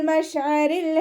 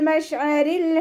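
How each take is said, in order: No difference in how they are said.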